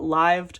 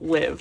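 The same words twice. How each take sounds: First: The name is said the group's own way. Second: The name is said the ordinary English way. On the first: It follows how the group itself says it. "that's how they pronounce it" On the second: It follows ordinary English reading. "if I was speaking English"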